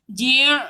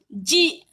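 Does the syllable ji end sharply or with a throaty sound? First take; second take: throaty; sharp. First: It ends with a throaty, ain-like sound. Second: It ends with a short, sharp stop. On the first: The speaker calls it wrong. "Tak nak ji', ji' tumuna, salah. Tu huruf ain" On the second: The speaker calls it right. "hamzah bunyinya sharp je. Tajam je"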